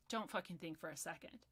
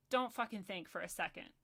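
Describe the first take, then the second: First: Lower, softer restrained disgust; subdued repeat. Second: Said in the usual way. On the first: Real, not acted. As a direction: drop the voice to drive it home.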